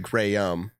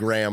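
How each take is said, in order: First: Graham is pronounced unlike the cracker. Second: Graham is pronounced like the cracker. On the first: This is the name's actual pronunciation. The speaker calls it right. "My last name is technically Graham" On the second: This is how most people say the name. The speaker calls it wrong. "saying Graham like the cracker"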